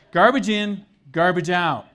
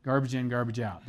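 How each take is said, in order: First: Loud, punched and higher; blunt slogan. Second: Said in the usual way. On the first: Shown as a demonstration. Preacher restating his inelegant version to the congregation, bluntly. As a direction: hammer out both halves forcefully. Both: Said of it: "This is the way I say it".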